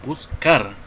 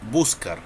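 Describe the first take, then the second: First: The stress is on the second syllable. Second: The stress is on the first syllable. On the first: The speaker calls it right. "la sílaba que más entona es car, porque nosotros decimos buscar" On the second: The speaker calls it wrong. "no decimos buscar"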